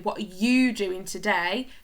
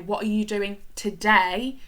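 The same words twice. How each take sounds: First: The word today carries no special emphasis. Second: The word today carries the main emphasis. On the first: "could be quite invasive" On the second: "with the emphasis on today"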